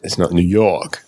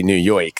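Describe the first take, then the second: First: New York said in an imitated New York accent; put-on New York accent. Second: New York said with a put-on Jersey accent; Jersey-style New York. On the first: Host contrasts it with Jersey, imitated New York accent. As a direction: try a local's New York pronunciation. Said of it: "I've been corrected because it's not really New York". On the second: Podcast host shows the misattributed accent, mock Jersey pronunciation. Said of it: "That's more of an, a Jersey thing". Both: Shown as a demonstration.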